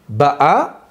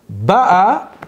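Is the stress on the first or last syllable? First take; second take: last; first. First: The stress is on the last syllable. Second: The stress is on the first syllable. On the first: She comes. "elle vient ... Milera" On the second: She came. "elle est venue ... Mille et elle"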